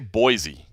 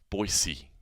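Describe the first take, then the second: First: The middle consonant is a Z sound. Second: The middle consonant is an S sound. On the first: This is how outsiders usually say it. "I always say Boise" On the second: This is how the locals say it. "they say more Boise ... just kind of an S instead of a Z"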